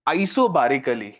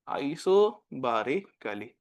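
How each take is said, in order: First: "isobarically" drawn out slowly, lower, falling at the end; slow dictation. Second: "isobarically" stretched even slower and softer, each syllable apart, falling; slower, softer dictation. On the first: Teacher dictating the last word to students, slow and lower. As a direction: stretch out "isobarically" so they can write it. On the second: Teacher repeating the word for students copying, very slow and soft. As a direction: repeat "isobarically" very slowly and quietly. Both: Shown as a demonstration. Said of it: "question लिखो".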